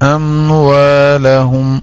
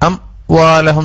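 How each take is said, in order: First: The word is said smoothly without a break. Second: The word is broken into two separate parts. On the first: The speaker calls it right. "അംവാലഹും അംവാലഹും എന്നല്ലാതെ" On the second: The speaker calls it wrong. "രണ്ട് കഷ്ണാക്കരുത്"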